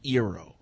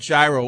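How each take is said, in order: First: The word begins without any G sound. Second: The word begins with a hard G sound. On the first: The speaker calls it right. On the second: The speaker calls it wrong.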